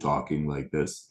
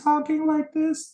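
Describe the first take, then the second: First: The voice is low and deep. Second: The voice is high and boyish. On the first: This is how a man sounds after his voice breaks. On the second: This is how a boy sounds before his voice breaks.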